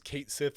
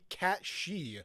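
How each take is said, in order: First: The name sounds like 'Kate Sith'. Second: The name sounds like 'Cat She'. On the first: "I thought it was Kate Sith" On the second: "I bet you it's supposed to be cat she"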